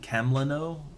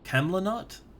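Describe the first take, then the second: First: The final T sound is left silent. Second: The final T sound is pronounced. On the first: The speaker calls it right. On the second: The speaker calls it wrong.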